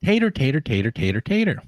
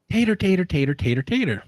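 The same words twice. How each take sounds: First: High Southern tater, tater, same pace; repeated Southern drawl, no slower. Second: High, fast Southern mumble of tater; mimicking a local mumbling tater, tater. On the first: Retold or imitated. The man repeating tater for the wife, in the same Southern accent. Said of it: "say it a bit slower and repeat". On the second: A man at the health department, imitated in a fast high Southern accent. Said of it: "someone comes in and says".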